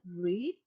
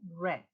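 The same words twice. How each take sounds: First: It is pronounced as the present-tense form. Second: It is pronounced as the past-tense form. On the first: It is the present tense. "the word read" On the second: It is the past tense. "past tense will be read"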